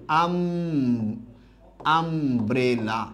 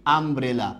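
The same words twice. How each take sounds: First: আমব্রেলা very slow, split as am-bre-la; syllable by syllable. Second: Said in the usual way. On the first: Shown as a demonstration. Teacher leading the class to repeat, আমব্রেলা slowly syllable by syllable. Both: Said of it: "আমার সাথে এটা উচ্চারণ করেন".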